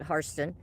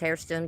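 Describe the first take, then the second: First: The first syllable sounds like 'har'. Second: The first syllable sounds like 'hair'. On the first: This is how the family says the name. "they pronounce it Harston" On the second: This is how the name is written. "it says Hairston"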